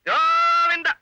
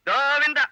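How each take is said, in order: First: கோவிந்தா drawn out, higher and louder; mock-dramatic long loud கோவிந்தா; louder lament. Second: Said in the usual way. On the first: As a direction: wail கோவிந்தா like a mock funeral cry. Father lamenting lost meal.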